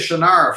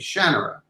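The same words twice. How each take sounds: First: It is pronounced the way the fans say it. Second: It is pronounced the way the author says it. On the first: This is how most readers say the name. The speaker calls it wrong. "you don't say it that way" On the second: This is how the creator says the name. The speaker calls it right. "the right way, which is the way I say it"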